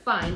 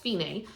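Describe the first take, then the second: First: "fine" as the everyday English word, one syllable; English reading. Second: "fine" in two syllables, FEE-nay; Italian pronunciation. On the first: Teacher showing how the music term looks, English "fine". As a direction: say "fine" to rhyme with "line". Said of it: "looks like fine". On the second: Teacher correcting how the music term reads, Italian "fine". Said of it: "it's actually pronounced fine". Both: Shown as a demonstration.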